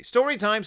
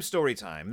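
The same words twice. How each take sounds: First: Put-on higher, playful chant of the kids' demand; chanted, mock kids' sing-song call. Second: Lower, softer echo of the chant. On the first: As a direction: chant it like eager cubs. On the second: Retold or imitated. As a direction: drop it down as the answering echo. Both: Cubs demand a bedtime story.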